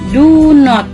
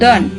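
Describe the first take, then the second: First: It is said as two full words. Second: It is said as one contracted word.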